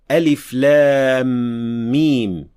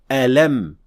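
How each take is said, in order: First: Each letter is spoken separately by its name. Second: The letters are joined into one short word. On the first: "pronounced as disjointed letter alif lam mim in other surahs" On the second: "pronounced as alam in Surah Ash-Sharh"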